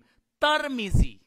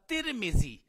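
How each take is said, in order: First: The first syllable has an 'a' vowel. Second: The first syllable has an 'i' vowel. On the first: This is how the town's own people commonly say it. "बिफतहि ता व कसरिल मीम" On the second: This is the long-known, widely established form. "ता के और मीम के कसरा के साथ"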